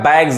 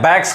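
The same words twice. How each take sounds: First: The final sound is a buzzing 'z'. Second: The final sound is a hissing 's'. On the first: The speaker calls it right. "जी के पास S आ रहा है तो ये जॉ पढ़ाएगा" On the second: The speaker calls it wrong. "अब इसको बहुत लोग गलत पढ़ते हैं, बैग्स कहते हैं"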